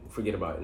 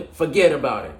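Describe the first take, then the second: First: Said in the usual way. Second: Put-on loud, high-pitched New York accent. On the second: Football host hamming up his best New York accent. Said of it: "in my best New York accent".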